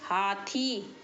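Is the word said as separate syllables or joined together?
joined. The two syllables are joined without a break.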